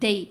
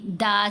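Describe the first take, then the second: First: The vowel glides toward an 'ee' sound. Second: The vowel stays a plain open 'a'. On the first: The speaker calls it right. "आवाज़ बन जाएगी दई" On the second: The speaker calls it wrong. "दाल ज़बर दा नहीं पढ़ा"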